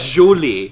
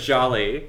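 First: The word is pronounced in a distorted way. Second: The word is pronounced in the standard way. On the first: The speaker calls it wrong. "She says jolly" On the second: The speaker calls it right. "Instead of jolly"

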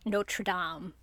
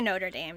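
First: Notre Dame is said the French way. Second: Notre Dame is said the American way.

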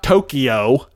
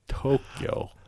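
First: Tokyo is pronounced in an English style. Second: Tokyo is pronounced in a Japanese style. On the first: The speaker calls it wrong. "it's not Tokyo" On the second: The speaker calls it right. "my wife, who speaks Japanese, is always just like, it's Tokyo"

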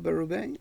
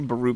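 First: The name is pronounced with a French accent. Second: The name is pronounced with an English accent. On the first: "might be the French" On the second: "that's what everybody else says"

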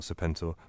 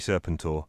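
First: The start does not sound like serpent. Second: The start sounds like the word serpent. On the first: The speaker calls it wrong. "not Serpentor" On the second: The speaker calls it right. "Because it's got the word serpent in it. And so it should be Serpentor"

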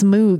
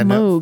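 First: The vowel sounds like the 'oo' in food. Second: The vowel sounds like the 'o' in vogue. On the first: The speaker calls it wrong. "People think it's Moog. It's not" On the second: The speaker calls it right. "Moog rhymes with Brogue"

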